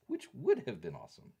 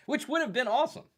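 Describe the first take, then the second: First: Said in the usual way. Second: Excited. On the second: Real, not acted.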